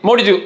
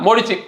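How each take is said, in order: Both takes have the same delivery.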